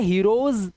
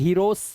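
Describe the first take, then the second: First: The word ends with a buzzing z sound. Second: The word ends with a hissing s sound. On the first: The speaker calls it right. "इसे हीरोज पढ़ना पड़ेगा" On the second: The speaker calls it wrong. "आप इसे हीरोस स नहीं पढ़ सकते"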